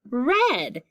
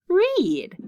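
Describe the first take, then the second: First: The vowel is a short E sound. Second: The vowel is a long E sound. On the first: "we could also read it with short E" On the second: "Let's start with sounding out long E"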